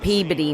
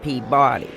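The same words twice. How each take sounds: First: The name is said the northern way. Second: The name is said the non-northern way. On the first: "we call"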